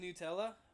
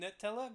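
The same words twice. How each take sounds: First: The first syllable sounds like 'noo'. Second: The first syllable sounds like 'nut'. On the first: The speaker calls it right. "I like saying Nutella" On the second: The speaker calls it wrong. "I don't like saying Nutella because I picture it like nut"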